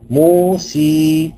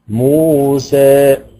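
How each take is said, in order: First: The final vowel is a pure ee sound. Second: The final vowel is a only slightly raised. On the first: "لو انا قرأتها بالياء الخالصة" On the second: "التقليل بقى هيبقى في منتصف المسافة ما بين الفتح والإمالة"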